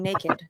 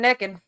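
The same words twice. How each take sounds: First: The word is said with a standard pronunciation. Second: The word is said with a Southern pronunciation. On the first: The speaker is feeling sophisticated. "Am I feeling sophisticated" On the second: The speaker is relaxed, like at a bar back home. "I'm from the South, so t- sometimes I'll be like"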